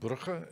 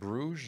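First: The name is said with a local Flemish pronunciation. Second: The name is said with a French pronunciation. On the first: The speaker calls it right. "as my father, who was born there, would pronounce it" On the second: The speaker calls it wrong. "as the French would pronounce it"

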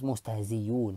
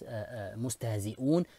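First: A y sound replaces the glottal stop. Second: A glottal stop is heard before the ending.

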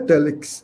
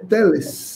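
First: The word ends with a 'ks' sound. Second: The word ends with a plain 's' sound. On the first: The speaker calls it wrong. "Eu falava telex, e não é telex" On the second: The speaker calls it right. "é teles"

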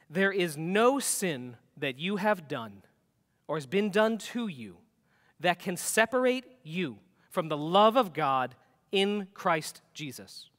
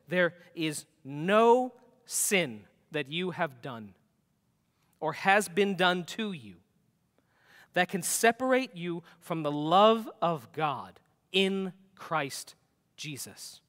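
First: It is said at a normal pace. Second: It is said slowly and deliberately.

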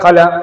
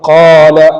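First: The first vowel is short, not lengthened. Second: The first vowel is held for two counts. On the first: The speaker calls it wrong. "നീട്ടാതെ കല, കില, കുലു അങ്ങനെ പറഞ്ഞാലും തെറ്റാണ്" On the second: The speaker calls it right. "ഖൂലു ഇത്ര മതി"

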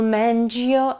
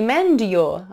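First: The d and y merge into a j sound. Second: The d and y are said as separate sounds. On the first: The speaker calls it right. "то они у вас j-j-j" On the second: The speaker calls it wrong. "не mend your, отдельно"

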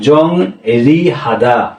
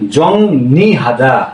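First: The second syllable begins with an r sound. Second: The second syllable begins with an n sound. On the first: The speaker calls it wrong. "যেমন এখানে আছে কি" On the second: The speaker calls it right. "এই রিউলটা নতে উচ্চারণ হয়"

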